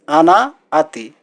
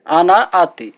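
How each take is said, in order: First: आना आती said slowly, each syllable drawn out; slow model pronunciation; slow teaching repeat. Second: Said in the usual way. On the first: Shown as a demonstration. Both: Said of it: "इसको अरबी में बोला जाता है".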